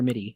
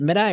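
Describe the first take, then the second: First: The word ends with an 'ee' sound. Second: The word ends with an 'eye' sound. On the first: The speaker calls it right. "Is it mid-eye or MIDI?" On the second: The speaker calls it wrong. "Is it mid-eye or MIDI?"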